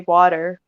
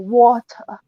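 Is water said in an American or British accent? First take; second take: American; British. First: The t in the middle sounds like a d. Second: The t in the middle is British-style, not a d. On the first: "that sounds like a D" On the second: "Unless you're British, and then you go water"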